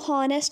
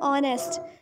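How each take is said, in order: First: The word starts with an audible h sound. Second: The word starts directly with a vowel. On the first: The speaker calls it wrong. "इसको हॉनेस्ट नहीं पढ़ेंगे" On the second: The speaker calls it right. "एच is silent"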